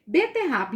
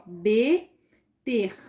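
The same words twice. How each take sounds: First: Said in the usual way. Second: Beterraba spoken slowly, syllable by syllable, be-ter-ra-ba; split into syllables. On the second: Shown as a demonstration. Teacher shows pupils how to split beterraba, slow syllables. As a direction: break beterraba into its four syllables. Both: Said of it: "eu separei".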